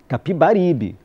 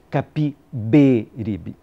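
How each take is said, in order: First: The vowel after 'Capib' is an open a. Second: The vowel after 'Capib' is an e. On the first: This is how people say it locally. "com A, como sempre tinha ouvido dizer no Recife" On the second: This is the form the teacher insisted on. "e corrigiu"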